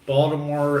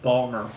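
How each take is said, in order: First: All three syllables are clearly pronounced. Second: The middle syllable is dropped entirely.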